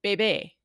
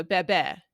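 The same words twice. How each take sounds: First: Bebé said the Spain way, with a closed e; Castilian pronunciation. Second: Bebé with the open e of mess; Latin American pronunciation. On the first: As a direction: give bebé the Castilian sound. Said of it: "pronounce that the Castilian way". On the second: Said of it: "it's e as in mess". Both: Shown as a demonstration.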